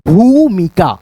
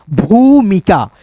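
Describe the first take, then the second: First: Said in the usual way. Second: भूमिका said slowly with the भू stretched long; drawn-out vowel. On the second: Shown as a demonstration. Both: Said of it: "तो इसमें उच्चारण खींच करके".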